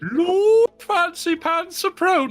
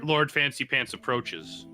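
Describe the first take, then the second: First: It is said in a fake posh voice. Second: It is said in a normal voice.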